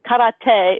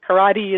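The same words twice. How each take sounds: First: It is said with a Japanese pronunciation. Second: It is said with an American pronunciation. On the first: This is how it is said in Japan. "is how they would say it in Japanese" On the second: This is how it is said in the United States. "is how we say it in the U S"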